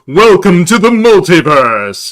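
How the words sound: It is said in a put-on announcer voice.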